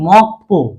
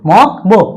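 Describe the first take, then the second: First: The second syllable starts with a tense p. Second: The second syllable starts with a plain b. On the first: "সাংবিউপ পর মত উচ্চারিত হবে" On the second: "উচ্চারণটার কথা কি?"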